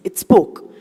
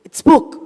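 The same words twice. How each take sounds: First: Said in the usual way. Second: It spoke with spoke punched higher and louder; emphatic. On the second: A narrator's reading. Telling the audience the cockroach spoke, spoke stressed. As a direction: land hard on spoke in it spoke. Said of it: "Yes, it spoke".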